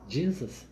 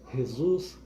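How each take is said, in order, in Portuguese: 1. O nome é dito com pronúncia inglesa. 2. O nome é dito com pronúncia de língua latina. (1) "pronunciado em inglês" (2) "como pronunciam os irmãos da língua latina"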